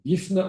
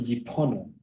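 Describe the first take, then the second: First: The word has an f sound and two syllables. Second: The word has a p sound and three syllables. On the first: Would mean to be empty. "there's two ways to pronounce it" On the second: Would mean to turn. "Yipone would mean, I believe, to turn"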